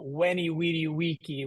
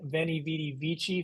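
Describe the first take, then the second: First: The first word begins with a w sound. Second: The first word begins with a v sound. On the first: This is the reconstructed classical pronunciation. "the classical pronunciation" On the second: This is the church pronunciation. "ecclesiastical is the church pronunciation"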